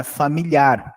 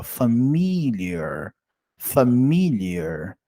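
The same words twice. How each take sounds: First: "familiar" said as in Portuguese, stressed on the last syllable; Portuguese-style familiar. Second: "familiar" drawn out slowly as fa-MIL-yer; slow English "familiar", leaning on MIL; stress on second syllable. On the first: Teacher showing the mistake, "familiar" stressed on final -ar. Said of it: "não é familiar". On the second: Teacher showing the accent, slow fa-MIL-yer for "familiar". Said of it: "olha o acento". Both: Shown as a demonstration.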